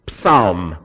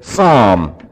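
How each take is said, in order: First: The P and L are both pronounced. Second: The P and L are both silent. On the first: This is the Greek way of saying it. "The Greeks say psalm" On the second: This is the English way of saying it. "We say psalm. We leave out the L and we leave out the P"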